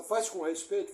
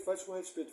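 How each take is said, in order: First: "Faz" lifted, rising at the end; stress on faz. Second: "faz" stressed, falling and softer; falling repeat. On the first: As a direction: hit "Faz" and let the phrase rise. (ênfase em "Faz", subindo no fim) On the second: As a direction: let "faz com respeito" fall and settle. ("faz com respeito" caindo, mais baixo) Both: Shown as a demonstration.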